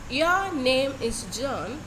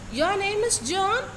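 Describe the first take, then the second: First: The pitch falls at the end. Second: The pitch rises at the end. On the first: It is a statement of fact. "It begins with a medium pitch and ending with a lower tone, and thereby it comes under a falling intonation" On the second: It asks a question. "with a question raising, it is called to be a raising intonation"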